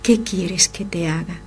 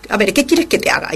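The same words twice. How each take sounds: First: Soft whispered gentle question; with sweetness. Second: Fast, impatient and curt; rude answer. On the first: Acted. Jesus asking the blind man gently, soft whisper. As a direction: ask it tenderly, barely above a whisper. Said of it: "con la dulzura que le caracterizaba". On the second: Shown as a demonstration. How we would answer a favour asked, fast and rude. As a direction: snap it out, annoyed. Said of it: "contestaríamos de mala manera".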